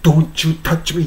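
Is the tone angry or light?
angry. It is said in an angry, harsh tone.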